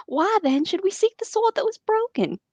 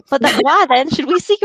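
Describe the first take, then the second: First: Put-on terrible southern accent. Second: Put-on southern accent. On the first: Boromir's line read in an overdone Southern accent. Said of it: "I have a terrible southern accent". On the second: Reading Boromir's line in a weak southern accent. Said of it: "give Boromir a southern accent".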